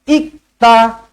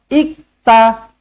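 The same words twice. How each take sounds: No difference in how they are said.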